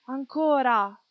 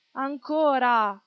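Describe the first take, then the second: First: A bit louder, higher call; crowd shout. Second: Slow, stretched call for more; drawn-out shout. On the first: Audience demanding more from the stage, eager shout. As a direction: cry out for more. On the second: Audience begging the show to go on, slow drawn-out shout. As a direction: drag out the plea for more. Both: A narrator's reading. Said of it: "Il pubblico gridava".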